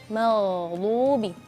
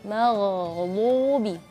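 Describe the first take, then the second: Both takes have the same delivery.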